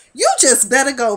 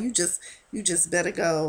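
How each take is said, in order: First: A firmer, louder telling-off; stern warning. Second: The same warning, dropped softer; softer repeat. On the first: Warning Ryan to leave, in a louder stern voice. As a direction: push him out the door with it. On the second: Repeating the warning to Ryan, quieter and resigned. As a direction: let the warning fall away quietly. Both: Retold or imitated.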